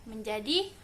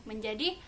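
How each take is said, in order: The two takes are said the same way.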